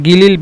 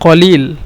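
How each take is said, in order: First: It begins with a g sound. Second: It begins with a back q sound. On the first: This is the Saudi regional form. "সৌদিরা গিলিল ব্যবহার করে কলিলকে" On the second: This is the standard Arabic form. "মূলত শব্দটি কলিল শুদ্ধ ভাষা"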